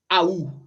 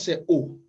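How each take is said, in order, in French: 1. Elle glisse de A vers OU. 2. C'est une seule voyelle O simple. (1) "Ne dites pas Aou. ... C'est un accent" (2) "la bonne prononciation, c'est O"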